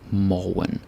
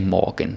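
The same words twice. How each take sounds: First: The word is said with a Danish pronunciation. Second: The word is said with a German-like pronunciation. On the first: The speaker calls it right. "Like saw, ball, morgen" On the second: The speaker calls it wrong. "Don't say morgen. This is not German or Swedish or whatever"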